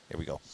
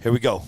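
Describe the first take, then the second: First: Much softer, fast and laughing through it. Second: Said in the usual way. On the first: Real, not acted. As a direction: giggle the words out. Laughing after a joke.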